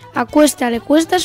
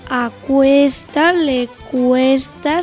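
First: The phrase is spoken at medium speed. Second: The phrase is spoken slowly. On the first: "Vamos con la velocidad media" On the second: "Primera velocidad"

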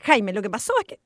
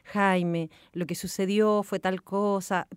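First: It is said in an annoyed, upset tone. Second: It is said in a gentle, sensitive tone.

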